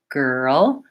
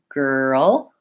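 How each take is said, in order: The two takes are said the same way.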